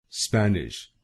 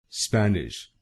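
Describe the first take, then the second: No difference in how they are said.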